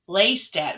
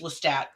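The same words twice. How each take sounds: First: The name is said with extra sounds added. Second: The name is said plainly, without additions. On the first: The speaker calls it wrong. "kept saying Lestat" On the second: The speaker calls it right. "it's just Lestat"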